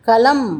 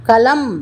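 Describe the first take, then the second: Both takes have the same delivery.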